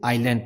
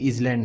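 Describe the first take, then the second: First: No consonant is heard before the L. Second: A Z sound is heard before the L. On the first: The speaker calls it right. "इसे आइलैंड पढ़ते हैं" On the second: The speaker calls it wrong. "या फिर इजलैंड नहीं पढ़ते"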